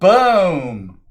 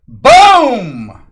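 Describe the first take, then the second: First: It is said quietly, without much energy. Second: It is said very loudly, with energy.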